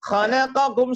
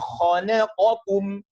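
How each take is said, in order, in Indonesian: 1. Semua konsonan dibaca tipis. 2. Konsonan tebal dan tipis dibedakan dengan jelas. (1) "semuanya tipis" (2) "Semuanya tampak dengan jelas"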